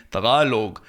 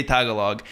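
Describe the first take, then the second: First: Tagalog as "tuh-GAH-log"; native pronunciation. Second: Tagalog as "TAG-uh-log"; front-stressed Anglicized Tagalog; English pronunciation. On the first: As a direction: lean on the second syllable of Tagalog. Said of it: "sound pretentious by saying". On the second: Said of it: "I don't wanna say Tagalog". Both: Shown as a demonstration.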